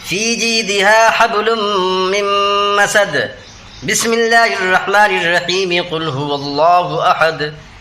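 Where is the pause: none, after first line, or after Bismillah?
after first line. A pause after the first part, then joined.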